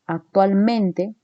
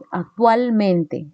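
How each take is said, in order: First: "actualmente" slowed, stress on tual and on men; slow "actualmente" with both stressed syllables marked; double stress demo. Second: "Actualmente" very slow, leaning on tual and men; double stress demo. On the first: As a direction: spell out the two stresses of "actualmente". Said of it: "pareciera que tiene una doble acentuación". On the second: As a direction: stretch "Actualmente" to show both stresses. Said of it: "tienes ahí un acento". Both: Shown as a demonstration.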